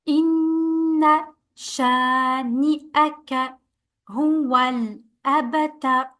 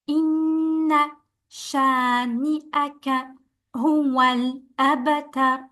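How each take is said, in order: No difference in how they are said.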